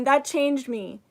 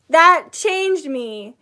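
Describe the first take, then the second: First: Said in the usual way. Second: Slow, loud, weighted That changed me; slow emphatic. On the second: Real, not acted. Telling viewers how the workshop changed her, slow and emphatic. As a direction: lean into That, slowly and firmly. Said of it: "emphatic slow".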